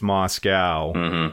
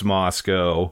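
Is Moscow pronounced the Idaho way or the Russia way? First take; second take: Russia; Idaho. First: It is pronounced the way used for Russia. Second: It is pronounced the way used for Idaho. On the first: It names the city in Russia. "in Russia it's Moscow" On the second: It names the town in Idaho. "but in Idaho it's Moscow"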